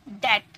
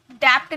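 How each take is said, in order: First: डेट said "det", no b or p; silent b. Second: डेप्थ said "dept", with a p-like stop; sounded b. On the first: Teacher giving students the model, डेट as "det". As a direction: go straight from vowel to t in डेट. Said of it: "डेप्थ नहीं बोलना है". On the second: Teacher showing students the mistake, डेप्थ as "dept". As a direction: put the wrong lip stop before t in डेप्थ. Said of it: "नहीं". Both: Shown as a demonstration.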